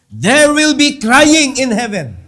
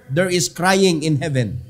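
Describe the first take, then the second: First: Louder and slower, leaning on "crying"; loud solemn repeat. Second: Said in the usual way. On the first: Shown as a demonstration. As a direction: hammer the warning home, drawing out "crying". (kusog ug hinay nga pagsulti sa "crying")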